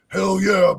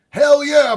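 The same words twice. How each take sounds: First: It is said in a distinctive signature voice. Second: It is read out in a plain voice. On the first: The speaker says it as his own. "Let me do it in my voice" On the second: Someone else wrote it. "Hopfad said"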